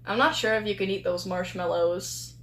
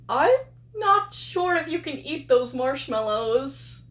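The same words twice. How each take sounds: First: It is said in a casual tone. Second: It is said in a hesitant tone.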